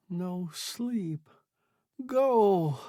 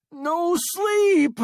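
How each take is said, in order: First: Mouthed horribly. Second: Very high, loud scream. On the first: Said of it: "he mouthed horribly". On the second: Stranded man refusing sleep, panicked scream. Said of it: "screamed Sale". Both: A narrator's reading.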